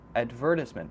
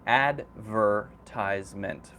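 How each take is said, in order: First: It is said with a British pronunciation. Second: It is said with an American pronunciation. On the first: "But that's usually the British pronunciation" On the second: "Americans usually say advertisement"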